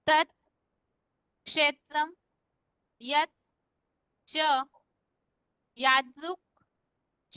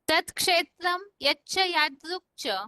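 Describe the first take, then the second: First: The words are split apart, each said separately. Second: The words run together with joined sounds. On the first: "श्लोक का संधि विच्छेद है" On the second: "श्लोक का उच्चारण दोबारा"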